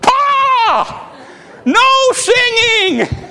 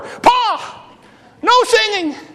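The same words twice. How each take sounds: First: It is said in a loud voice. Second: It is said a little louder.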